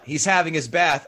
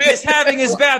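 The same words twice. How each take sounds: First: It is said in the speaker's own natural voice. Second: It is said in an imitated character voice.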